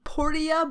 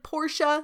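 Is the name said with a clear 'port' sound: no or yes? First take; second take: yes; no. First: The name starts with a clear 'port' sound. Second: The name starts without a clear 'port' sound. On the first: The name comes from a little port. "like a little port, so I think it's Portia" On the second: The name follows its usual spelling. "but it's spelled like Portia"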